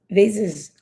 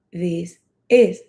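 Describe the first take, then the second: First: "This is" run together quickly; quick, joined-up "This is". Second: "This is" as two separate words; unhurried, word-by-word "This is"; slow, separate words. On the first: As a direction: link "This is" without a gap. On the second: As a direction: say "This", pause briefly, then "is". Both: Shown as a demonstration. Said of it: "Cuando lo diga rápido".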